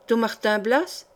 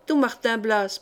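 First: Don Martin Blas asked with a rising, surprised tune; quick curious interruption, voice lifting at the end; surprised question. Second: Don stressed, falling tune, a plain confirmation; confirming statement. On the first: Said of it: "interrompirent les deux sœurs à la fois". (sœurs curieuses qui interrompent, question montante surprise) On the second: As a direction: answer it flatly, stress on Don. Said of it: "répartit Mariole". (Mariole confirme le nom, intonation descendante) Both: A narrator's reading.

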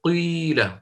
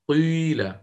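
First: قيل begun on damma then snapped back to kasra; ishmam, catching yourself. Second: قيل with a rounded i leaning towards u throughout; shuyu ishmam. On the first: Teacher showing students the self-correcting onset. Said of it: "يعني تقول". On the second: Teacher contrasting methods for students, rounded i. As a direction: blend i and u together in قيل. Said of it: "يعني تطبيقًا كيف سيكون؟". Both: Shown as a demonstration.

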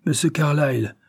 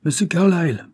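First: Put-on the old driver muttering the name again; quieter scorn. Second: Higher, louder, mocking "Monsieur Carlyle"; father mocking his lawyer's name; scornful repeat. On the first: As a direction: let "monsieur Carlyle" sink into bitter mockery. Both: A narrator's reading. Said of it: "répéta-t-il".

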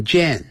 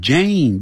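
First: Jane as "jen", with a short e; mispronounced Jane. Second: Jane with a long ay vowel; correct Jane. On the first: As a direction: say Jane wrongly, like "shen". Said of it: "不要念成Jane". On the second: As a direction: say Jane as JAYN, drawing out the A. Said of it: "念成Jane". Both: Shown as a demonstration.

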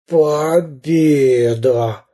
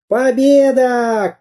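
First: Very slow, groaned victory; groaning. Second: High, slow victory cry; triumphant cry. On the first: Beaten pirate captain claims victory, groaning. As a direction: moan it out, long and laboured. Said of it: "простонал капитан Буль-Буль". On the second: Самоделкин cries out while beating the pirate, triumphant. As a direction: draw out a high cheer of triumph. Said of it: "кричал Самоделкин". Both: A narrator's reading.

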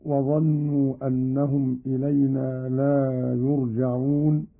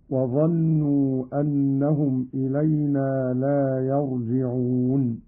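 First: Said in the usual way. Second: يرجعون said yarji'un, "a" on the ya, "i" on the jim; active-voice vowels. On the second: Shown as a demonstration. Teacher demonstrates Qalun's reading, يرجعون as yarji'un. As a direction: read يرجعون as "yarji'un", not yurja'un. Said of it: "بفتح الياء وكسر الجيم".

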